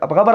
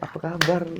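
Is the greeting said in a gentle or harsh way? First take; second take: harsh; gentle. First: The greeting sounds blunt and harsh. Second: The greeting sounds soft and gentle. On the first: This is how people greet in Medan. "Kalau di Medan tuh gitu" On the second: This is how people greet here. "kalau di sini kan kayak"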